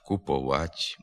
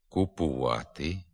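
First: The suffix vowel is pronounced as o. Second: The suffix vowel is pronounced as u. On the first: The speaker calls it wrong. "вимовляється звук «о»" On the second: The speaker calls it right. "Треба вимовляти"

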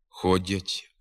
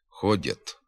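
First: The final t sound is soft. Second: The final t sound is hard. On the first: This is the literary standard form. The speaker calls it right. "звук «т» вимовляється м'яко" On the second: This is a dialectal form. The speaker calls it wrong. "Тверда вимова «т» у цих позиціях"

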